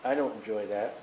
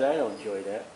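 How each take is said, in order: First: "don't" leaned on, low and soft, rising at the end; God's sorrow. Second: "I" leaned on, low and soft, rising at the end; God's sorrow. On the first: God repeating to mourners, low soft stress on "don't". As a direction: stress "don't" in "I don't enjoy that", lower and much softer. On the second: God looking down on mourners, low soft stress on "I". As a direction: stress "I" in "I don't enjoy that", lower and much softer. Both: Acted. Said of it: "God looks down and says".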